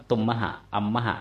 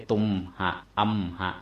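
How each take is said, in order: First: ตุมมหะ อัมมหะ with the ม carried into a short extra "ma" before หะ; linked-consonant reading. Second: ตุมหะ อัมหะ cut into two beats each, tum-ha, am-ha; no linking "ma" in ตุมหะ อัมหะ; unlinked reading. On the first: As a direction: read ตุมมหะ อัมมหะ in three beats, tum-ma-ha, am-ma-ha. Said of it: "อ่านว่า". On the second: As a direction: stop on ม, then a separate หะ in ตุมหะ อัมหะ. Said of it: "ไม่ใช่". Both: Shown as a demonstration.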